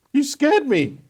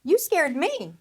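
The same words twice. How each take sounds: First: High, loud, frightened cry; shrill-pitched startled protest; startled accusation. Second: YOU punched higher, throwing the blame back; indignant echo with weight on "You"; retort stressing YOU. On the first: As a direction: blurt it out, shaken by fright. Startled snake blames the woman. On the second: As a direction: hit the word "You" hard to turn it round. Woman turns the accusation back. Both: Acted.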